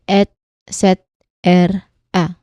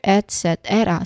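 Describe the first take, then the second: First: The syllables are said slowly and separately. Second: The syllables are said faster, still slightly apart. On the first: "you can say it like this"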